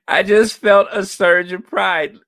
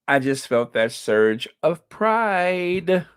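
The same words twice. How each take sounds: First: Swelling pride. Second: Said in the usual way. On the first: Real, not acted. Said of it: "Can I say that again?".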